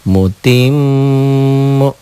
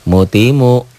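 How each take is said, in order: First: The m is doubled and held with nasal hum. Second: The m is single and short without hum.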